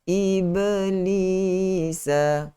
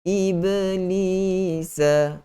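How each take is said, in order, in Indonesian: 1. Bunyi b memiliki pantulan yang kecil dan ringan. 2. Bunyi b memiliki pantulan yang kecil dan ringan.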